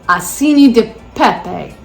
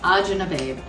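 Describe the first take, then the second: First: The name is said in its full standard form. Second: The name is said in a clipped dialect form. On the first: This is the name printed on the package. "that's what you look for in the store" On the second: This is how the family said it at home. "that's how we pronounced it"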